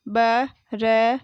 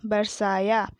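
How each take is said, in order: First: बरसाया broken into ba, ra, saa, yaa; बरसाया letter by letter with gaps between; spelled out. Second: Said in the usual way. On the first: Shown as a demonstration. Teacher sounding out बरसाया for pupils, syllable by syllable. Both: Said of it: "मैंने इस तरीके से पढ़ा".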